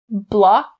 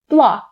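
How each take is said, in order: First: The final k sound is clearly released. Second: The final k sound is stopped, not released. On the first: "You can either pronounce the K sound distinctly" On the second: "And I'll stop the K sound"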